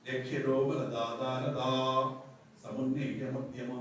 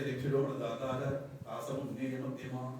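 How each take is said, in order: First: It is said with a 'ta' syllable after 'latara'. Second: It is said without a 'ta' syllable after 'latara'. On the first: The speaker calls it right. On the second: The speaker calls it wrong.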